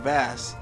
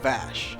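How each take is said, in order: First: The word ends with an s sound. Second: The word ends with an sh sound. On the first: The speaker calls it wrong. "it's not actually Vass" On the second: The speaker calls it right. "it's called Vash"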